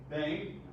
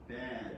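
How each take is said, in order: First: The vowel is long and full. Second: The vowel is short and reduced.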